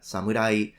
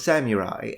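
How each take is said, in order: First: The word is said with Japanese pronunciation. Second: The word is said with English pronunciation. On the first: "how to pronounce these words in Japanese" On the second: "the opposite thing"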